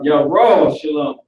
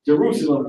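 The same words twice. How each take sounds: First: "Yahweh Shalom" slowed, said as yah-RAW-sha-lum; Hebrew pronunciation. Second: Said in the usual way. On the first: Shown as a demonstration. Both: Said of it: "That's how you say Jerusalem".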